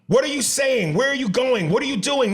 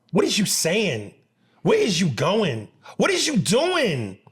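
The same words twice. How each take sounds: First: "What are you saying" with a clear, high "are" in place of "is"; correct "are you". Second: Mock the wrong "is you" grammar; imitating "is you". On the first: Shown as a demonstration. Correcting "is you" to "are you", said high. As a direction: model the right "are" firmly and high. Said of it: "It's R. A R E". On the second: Mocking people who say "is you" instead of "are you".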